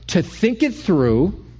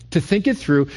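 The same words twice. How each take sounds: First: "to think it through" drawn out slowly, rising on "it"; slow emphasis. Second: "to think it through" at normal pace, falling at the end; falling repeat. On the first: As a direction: linger on each word of "to think it through". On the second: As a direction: settle "to think it through" down firmly. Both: Shown as a demonstration. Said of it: "you took that moment".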